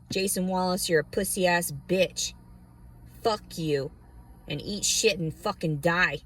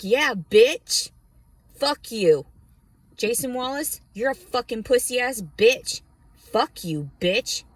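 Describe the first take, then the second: First: Said in the usual way. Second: Loud, high cussing out; defiant shout. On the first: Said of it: "That's what I should just label this fucking video". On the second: Retold or imitated. Telling off Jason Wallace, a loud defiant shout. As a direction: yell it right at him. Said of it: "And I'm just like".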